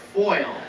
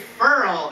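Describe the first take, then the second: First: Foil is said with a standard 'oy' sound. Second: Foil is said like 'furl', New Orleans style.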